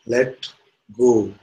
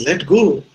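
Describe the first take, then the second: First: Measured, separated words, lightly voiced God. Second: High, loud incredulous echo; acted disbelief. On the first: God answers the hanging man, lightly voiced calm command. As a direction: pronounce it as a calm command, pausing between words. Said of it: "the voice says". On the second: Man questions God's advice from cliff, acted loud disbelief. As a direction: throw it back as an appalled question. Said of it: "He says".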